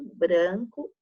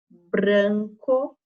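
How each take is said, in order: First: The R sound is light and natural. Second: The R sound is forced and exaggerated. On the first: The speaker calls it right. "A gente fala" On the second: The speaker calls it wrong. "A Pro só está dando essa forçadinha no R para vocês perceberem"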